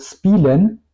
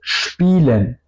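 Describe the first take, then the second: First: It starts with a plain s sound. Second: It starts with an sh sound. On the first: The speaker calls it wrong. "no digo spielen" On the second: The speaker calls it right. "digo spielen"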